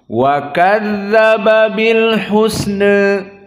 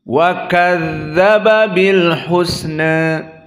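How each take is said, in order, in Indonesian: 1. Vokal akhir sedikit condong ke e. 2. Vokal akhir sedikit condong ke e.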